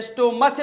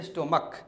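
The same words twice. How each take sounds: First: स्टोमच ending in "ch"; the wrong reading स्टोमच, CH as in church; wrong pronunciation. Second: स्टोमक lower and softer, ending in "k"; correct pronunciation. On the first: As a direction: say स्टोमच with a final च sound. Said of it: "जैसे स्टोमच नहीं". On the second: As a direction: drop the voice on स्टोमक, final क. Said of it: "सीएच का sound क से". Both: Shown as a demonstration.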